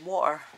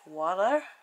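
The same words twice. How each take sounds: First: The t is dropped from the middle. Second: The t sounds American-style, soft and d-like. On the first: This is how people here usually say it. "We say water. We don't have a T" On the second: This is how Americans say it. "Now in America, I think you say... Do you say water like that?"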